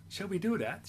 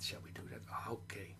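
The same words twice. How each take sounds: First: Said in the usual way. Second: The puppet's secret whisper. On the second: Acted. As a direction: breathe it like a secret in the ear. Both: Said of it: "he's whispering something in my ear".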